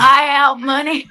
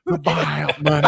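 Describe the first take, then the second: First: Slow drawled "Buyout money" in the impression voice; Sam Pittman impression. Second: Slow drawn-out "buyout money"; imitating Pittman. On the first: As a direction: repeat the line on request, drawn out. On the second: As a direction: drag out buyout money mockingly. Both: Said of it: "Do that again".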